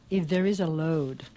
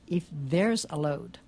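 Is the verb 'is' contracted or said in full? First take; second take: full; contracted. First: The word 'is' is said in full. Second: The word 'is' is contracted to 's. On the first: "en esa línea dice" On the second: "Usando una contracción común que es quitarle la I a is"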